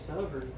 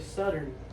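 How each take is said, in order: First: The middle consonant is a th sound. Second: The middle consonant is a t or d. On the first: This is not how Southern speakers say it. "we don't even say Southern" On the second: This is how Southern speakers say it. "two T's or a D"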